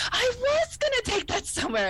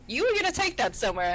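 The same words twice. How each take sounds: First: High, dreamy realization; Beverly voice. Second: Picard voice. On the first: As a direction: echo it back, pitched way up. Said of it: "And she goes". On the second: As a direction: calmly point it out as the captain. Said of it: "Picard looks at the hypo spray and goes". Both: Retold or imitated.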